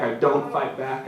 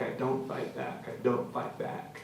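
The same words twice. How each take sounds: First: Said in the usual way. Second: Much softer, whispered repetition; whispered surrender while being beaten. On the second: Acted. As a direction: let the words fade to a whisper.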